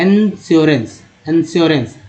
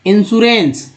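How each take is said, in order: First: इंश्योरेंस as en-sio-rens; the usual wrong इंश्योरेंस; common mispronunciation. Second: इंश्योरेंस as in-shu-rens, a little higher; इंश्योरेंस said properly; correct pronunciation. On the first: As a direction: say इंश्योरेंस the way people get it wrong. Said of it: "लोग बोलते हैं". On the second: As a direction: give the right इंश्योरेंस. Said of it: "लेकिन इंश्योरेंस". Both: Shown as a demonstration.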